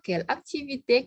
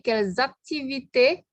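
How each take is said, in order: First: No z sound links the two words. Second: A z sound links the two words. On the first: There is only one activity. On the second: There are several activities.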